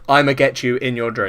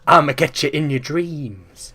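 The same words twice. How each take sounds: First: It is said in his normal voice. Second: It is said in a Freddy Krueger voice.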